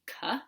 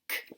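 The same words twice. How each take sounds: First: The consonant is followed by an 'uh' vowel. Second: The consonant is clipped with no vowel after. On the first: The speaker calls it wrong. "it should not be K" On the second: The speaker calls it right. "it should just be K"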